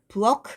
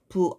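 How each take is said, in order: First: The final consonant is a released, aspirated k. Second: The final consonant is a plain, unreleased g. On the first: The speaker calls it wrong. "크 발음을 하지 않는다" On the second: The speaker calls it right. "그 발음으로 마지막 끝소리를 바꾸어서"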